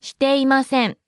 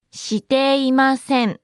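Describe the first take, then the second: First: Said in the usual way. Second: Every syllable lengthened and distinct. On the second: Shown as a demonstration. Slow repeat for learners.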